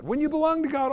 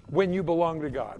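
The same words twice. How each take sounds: First: Belong said higher, with a falling tune; stress on belong. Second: Said in the usual way. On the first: Shown as a demonstration. Preacher to congregation, repeating the line with belong lifted higher. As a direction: lift the word belong above the rest. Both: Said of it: "repeats phrase for emphasis".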